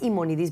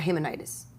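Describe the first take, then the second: First: The name begins with a vowel, no h. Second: The name begins with an h sound. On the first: This is the name as said in Spanish. "en español es Imonidis" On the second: This is how the father said the name. "mi papá decía Himonides"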